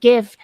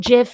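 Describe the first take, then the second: First: The word begins with a hard G sound. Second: The word begins with a soft J sound. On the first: The letter is said as in the word it stands for. The speaker calls it wrong. "not GIF" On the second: The letter is not said as in the word it stands for. The speaker calls it right. "it's still GIF"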